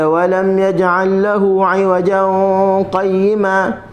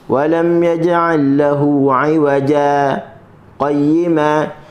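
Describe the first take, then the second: First: It flows straight into qayyima without pausing. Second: A brief breathless pause comes before qayyima. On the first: The speaker calls it wrong. "kita tak boleh baca" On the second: The speaker calls it right. "kita berhenti tanpa bernafas, kadar dua harakat"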